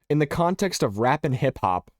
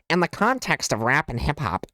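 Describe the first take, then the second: First: It is said in his ordinary voice. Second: It is said in a put-on voice.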